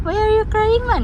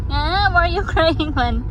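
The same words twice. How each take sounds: First: Very high, loud teasing question. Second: High, loud mock fussing. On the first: Mother asking crying baby again, squeaky loud teasing. Repeats tease, higher. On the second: Mother asking baby about crying, playful high fussing. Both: Real, not acted.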